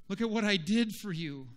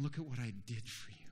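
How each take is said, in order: First: Higher-pitched, insistent plea; raised appeal. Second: Soft, low, quick phrase; hushed appeal. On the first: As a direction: press it on them with raised voice. True vine pleading with branch. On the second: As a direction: say it gently, almost to yourself. True vine speaking tenderly to branch. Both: Acted.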